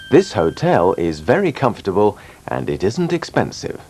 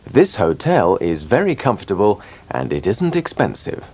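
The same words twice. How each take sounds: The two takes are said the same way.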